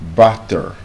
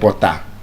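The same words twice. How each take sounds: First: The first vowel sounds like 'uh'. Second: The first vowel sounds like 'oh'. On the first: The speaker calls it right. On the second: The speaker calls it wrong.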